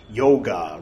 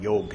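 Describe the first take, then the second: First: The word ends with a final vowel sound. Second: The word ends without a final vowel sound. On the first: "I know I'm pronouncing the A's" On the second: "They call it yog here"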